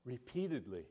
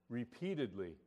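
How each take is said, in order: Both takes have the same delivery.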